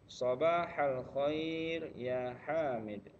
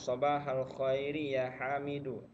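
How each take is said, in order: First: The final vowels are dropped from the words. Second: The final vowels are sounded on the words. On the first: "Bapak sukun-sukunkan, di akhirnya dimatikan" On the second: "kalau di disebut barisnya"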